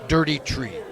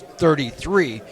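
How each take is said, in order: First: It is said in a thick Donegal accent. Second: It is said in the speaker's plain accent.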